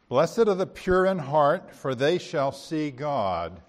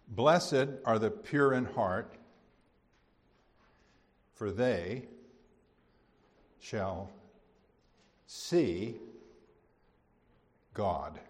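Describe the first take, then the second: First: The verse is read at a fast pace. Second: The verse is read at a slower pace. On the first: The speaker calls it wrong. "I read it too fast" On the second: The speaker calls it right. "I want to read it again"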